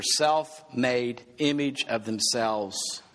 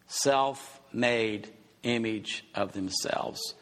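First: Slowed emphasis. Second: Self-made image of themselves said slowly, each word weighed; slow emphatic repeat. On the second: Preacher to his congregation, slowly repeating the phrase. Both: Shown as a demonstration. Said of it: "repeated for emphasis".

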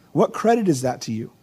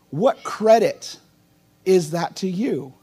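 First: Said in the usual way. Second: "what credit" drawn out slowly, each word weighed; slow right down on "what credit is that to you?". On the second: Shown as a demonstration. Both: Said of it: "But notice what Jesus says".

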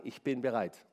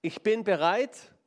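First: Quiet vow. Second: Slow, stressed "bin" with a rise; a slow, insistent "Ich bin bereit"; emphatic vow. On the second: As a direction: lean on "bin" and lift the end. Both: Shown as a demonstration. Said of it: "Ich muss sagen".

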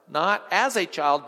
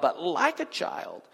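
First: As pressed a little louder; not as a child, lean on as; as given the weight; stress on as. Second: Like drawn out and slowed; but like a child, lean on like; like given the weight, slower; stress on like. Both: Shown as a demonstration.

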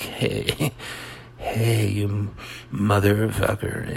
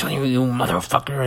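First: Slow, easygoing cursing with a chuckle; mock mellow. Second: Hammed-up outraged cursing; dramatic. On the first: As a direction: curse someone out as if totally chilled. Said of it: "melodramatic is like". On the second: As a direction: curse someone out with mock drama. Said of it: "Like, dramatic is".

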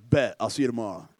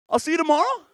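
First: Low, offhand man's reply; Samson. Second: High mock woman voice; coyly pitched up, acting as if nothing happened; Delilah. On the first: Retold or imitated. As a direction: drop the pitch and agree coolly. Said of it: "Samson's like". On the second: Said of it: "This is Delilah's voice".

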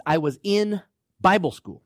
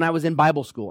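First: Emphatic, held "in"; stress on in. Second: Said in the usual way. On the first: Shown as a demonstration. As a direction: lean hard on "in", then pause before "Bible school". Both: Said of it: "and I emphasize".

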